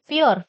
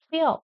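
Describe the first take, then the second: First: "pure" with a sounded final r; common Indian pronunciation. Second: "pure" as pyo, silent r; actual pronunciation. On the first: Teacher shows the usual mistake, "pure" with clear r. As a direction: say "pure" as pyoor, r pronounced. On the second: Teacher models the word for students, "pure" without r. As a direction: drop the r at the end of "pure". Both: Shown as a demonstration. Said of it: "actual pronunciation is pure".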